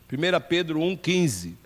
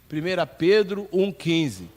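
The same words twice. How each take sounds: The two takes are said the same way.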